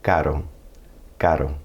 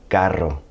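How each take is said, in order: First: "Caro" with a single tap for R; soft tapped R. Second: "carro" with a trilled R; rolled double R. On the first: Teacher models Caro meaning expensive, tapped R. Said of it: "more like a tap on the roof". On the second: Teacher contrasts carro with caro, rolled R. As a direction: roll out the R in "carro". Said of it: "I'm not saying carro". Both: Shown as a demonstration.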